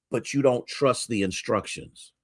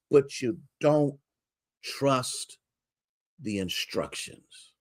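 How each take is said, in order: First: Said in the usual way. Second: "but you don't" then a pause, "trust" soft and apart, "the instructions" fading to almost nothing; dramatic pauses. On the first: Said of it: "repeated refrain". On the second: Shown as a demonstration. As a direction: let "trust" hang alone before "the instructions". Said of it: "refrain with pauses".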